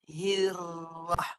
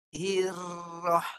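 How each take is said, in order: The two takes are said the same way.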